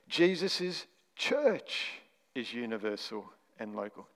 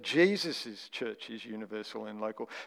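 First: The stress falls on the word church. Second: The stress falls on the word Jesus'. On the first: The point is what a church is. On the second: The point is whose church it is.

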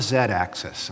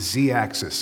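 First: The letter is said as zed. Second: The letter is said as zee. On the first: This is the British way of saying it. The speaker calls it wrong. "not a Z-axis" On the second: This is the American way of saying it. The speaker calls it right. "stick to my American guns"

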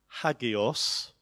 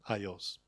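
First: It begins with H and has a hard G. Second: It has no H and the G becomes Y. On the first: This is how scholars say it, not modern speakers. The speaker calls it wrong. "A lot of people will pronounce it as hagios" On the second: This is how speakers of the language say it today. The speaker calls it right. "the way a Greek would say it today is aios"

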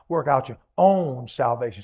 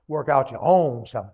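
First: The word own is strongly emphasized. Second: The word own gets no special emphasis. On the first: "Put that own emphasized" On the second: "say it with me"

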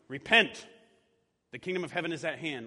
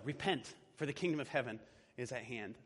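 First: It is said in a scolding tone. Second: It is said in an inviting tone.

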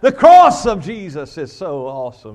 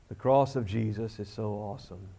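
First: It is said with lively, excited passion. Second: It is said flat and gloomy, like Eeyore.

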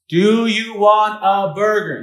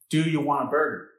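First: It is said very loudly. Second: It is said at a normal volume.

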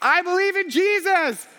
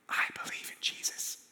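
First: The phrase is screamed at full volume. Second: The phrase is whispered very quietly. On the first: "was screaming" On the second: "as quietly as I could, I whispered the words"

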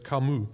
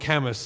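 First: The name is said with a French pronunciation. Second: The name is said with an anglicized pronunciation. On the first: The speaker calls it right. "but he's French, so it's Camus" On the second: The speaker calls it wrong. "as some people call him"

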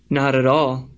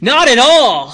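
First: It is said calmly, without much force. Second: It is said loudly, with forceful exclamation.

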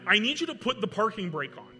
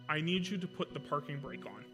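First: It is said with panic in the voice. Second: It is said in a calm, normal voice.

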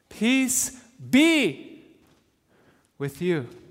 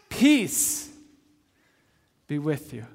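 First: The stress is on the word be. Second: The stress is on the word peace.

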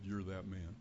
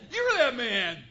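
First: It is said in a kind, gentle but firm tone. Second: It is said in a harsh, accusing tone. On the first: The listener is being corrected with grace. The speaker calls it right. "in a kind, gracious, but firm and clear way" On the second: The listener is being condemned as a hypocrite. The speaker calls it wrong. "You hypocrite!"

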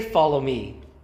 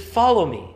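First: The stress is on me. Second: The stress is on follow.

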